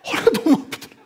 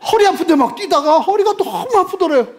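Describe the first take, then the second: First: Laughing. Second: High and loud, laughing as you say it; laughing through words. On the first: Laughing repeat of punchline. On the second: Preacher laughing at the man's back pain, laughing through words. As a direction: giggle through the punchline. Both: Real, not acted.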